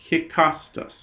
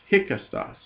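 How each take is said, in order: First: "hikastas" with the beat on KAS; stress on middle syllable. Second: "hikastas" with KAS unstressed, softer; stress moved off middle syllable. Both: Real, not acted. Corrects own stress on Greek word.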